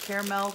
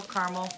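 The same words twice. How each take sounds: First: Caramel said KAIR-mel, first syllable like "care", two syllables. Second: Caramel said KAR-mul, first syllable like "car", two syllables. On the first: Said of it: "How do you guys say it?". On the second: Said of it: "I've been told I say it weird". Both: Shown as a demonstration.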